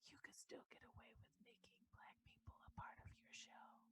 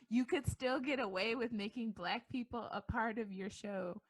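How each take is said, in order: First: It is said quietly, almost whispered. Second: It is said loudly and openly.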